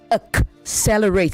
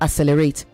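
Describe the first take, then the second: First: A k sound comes before the s sound. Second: No k sound comes before the s sound. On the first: The speaker calls it right. "You also say accelerate, There are two C's" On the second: The speaker calls it wrong. "not accelerate"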